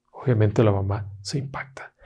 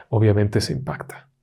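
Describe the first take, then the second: First: Hushed unvoiced repeat; whispered. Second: Said in the usual way. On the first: Shown as a demonstration. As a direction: lean in and whisper it.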